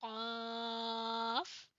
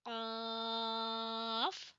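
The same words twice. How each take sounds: First: क़ाफ़ slow, from the back of the throat; guttural क़ाफ़ again; qaf from the throat. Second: Guttural Arabic क़ाफ़; qaf from the back of the throat. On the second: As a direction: drag out क़ाफ़ from far back. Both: Shown as a demonstration. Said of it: "अपने गले के एंड से अदा करेंगे".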